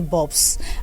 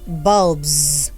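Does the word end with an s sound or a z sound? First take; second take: s; z. First: The word ends with an s sound. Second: The word ends with a z sound. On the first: The speaker calls it wrong. "so don't say bulbs" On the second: The speaker calls it right. "we pronounce the plural marker S as if the noun ends with any of the voiced sounds"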